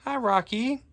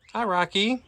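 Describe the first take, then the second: First: Very high sing-song hello to a bird; cooing pet voice. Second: Cooing pet voice. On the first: Greeting Rocky the parrot again in a high cooing pet voice. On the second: Greeting Rocky the parrot in a high cooing pet voice. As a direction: coo a hello up high like to a pet. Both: Real, not acted.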